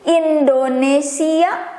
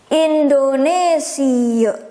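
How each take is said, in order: First: It is pronounced the Indonesian way. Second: It is pronounced the Dutch way. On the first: "I will pronounce my own country name, country's name with the way I pronounce it" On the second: "In Dutch ... you pronounce this word, the country of mine, as Indonesia"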